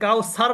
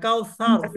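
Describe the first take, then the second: First: The middle consonant is a plain s sound. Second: The middle consonant is a soft th sound. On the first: The speaker calls it wrong. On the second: The speaker calls it right.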